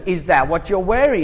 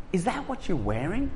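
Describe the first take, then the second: First: Said in the usual way. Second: Loaded wife's question. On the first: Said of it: "that sounds like a question". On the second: Retold or imitated. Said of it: "That is a command disguised as a question".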